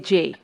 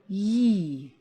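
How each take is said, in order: First: It is said as the letter name jay. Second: It is said as a y sound. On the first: The speaker calls it wrong. "You don't say J" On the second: The speaker calls it right. "This sound is pronounced yi"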